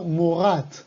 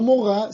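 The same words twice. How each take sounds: First: "morat" slow and deliberate, with a clear final t; "morat" with the t sounded crisply; correct form stressed. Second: "morá" said as the wrong form, ending open on á with no t; "morá" ending in a plain vowel; wrong form shown. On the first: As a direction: give "morat" as the right answer, slowly. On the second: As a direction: set up "morá" as the form to avoid. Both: Shown as a demonstration. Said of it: "No morá, sino morat".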